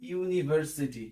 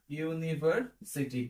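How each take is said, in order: First: ইউনিভার্সিটি said slowly, starting with a clear "ইউ" sound; slow clear demo. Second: ইউনিভার্সিটি drawn out even slower and a little softer, "ইউ" start kept; slower clear demo. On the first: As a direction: stretch out ইউনিভার্সিটি, opening on "ইউ". (ইউনিভার্সিটি ধীরে, শুরুতে স্পষ্ট "ইউ") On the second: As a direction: drag ইউনিভার্সিটি out slowly, syllable by syllable. (ইউনিভার্সিটি আরও ধীরে টেনে টেনে) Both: Shown as a demonstration. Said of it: "তারপরে".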